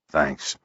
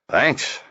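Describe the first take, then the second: First: It is said sleepily, without enthusiasm. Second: It is said warmly, with enthusiasm.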